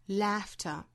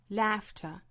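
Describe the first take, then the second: No difference in how they are said.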